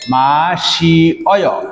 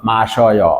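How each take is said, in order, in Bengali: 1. দুটি স্বর আলাদা দুটি ধ্বনি হিসেবে উচ্চারিত হয়। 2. দুটি স্বর মিশে এক ধ্বনি হয়ে যায়। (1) "এই দুটো মিলে আমরা এটাকে এভাবে করতে পারি সম্মিলিতভাবে, মাসি অয়" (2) "আলটিমেটলি এটাকে উচ্চারণ করবে মাসয়"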